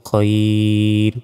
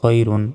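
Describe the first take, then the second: First: The word stops short on the 'r' sound. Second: The word ends with a full 'run' ending. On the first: The reader pauses at this word. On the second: The reading continues without a stop.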